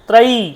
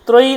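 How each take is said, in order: First: The final vowel is long. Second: The final vowel is short. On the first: The speaker calls it right. "ত্রয়ী দীর্ঘী আছে কিন্তু" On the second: The speaker calls it wrong. "ত্রয়ী নয় কিন্তু"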